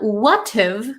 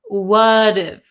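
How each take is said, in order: First: Each word is said separately and fully. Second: The words blend together with a flapped T. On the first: The speaker calls it wrong. "It's not" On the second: The speaker calls it right. "we have that flap T"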